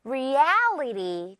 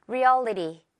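First: Reality slowly, with a long wide "al"; stretched middle syllable. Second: Reality said short, the "al" not drawn out; unstretched middle syllable. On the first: Teacher showing the correct way, Reality with a drawn-out "al". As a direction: pull the middle of Reality out like rubber. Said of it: "L 부분을 아주 길게". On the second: Teacher showing learners the mistake, Reality without the long "al". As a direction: keep the middle of Reality quick and small. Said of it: "이게 아니고요". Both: Shown as a demonstration.

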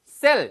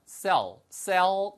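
First: "sell" short and loud with a clear l; mistaken pronunciation. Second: "sell" stretched, with a dark l; natural pronunciation. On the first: Teacher showing learners how it does not sound, mistaken "sell". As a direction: say "sell" crisply as spelled, Korean-style. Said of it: "sell 이렇게 안 들리고요". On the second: Teacher showing learners how it really sounds, natural "sell". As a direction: round off the l in "sell" like "se-ol". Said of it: "이렇게 안 들리고요". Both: Shown as a demonstration.

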